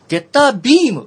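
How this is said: It is shouted out with a lively pitch. The beam seems not to reach far. The speaker calls it wrong. "ゲッタービームっていう感じで叫ぶのかなと思っていたんだけど"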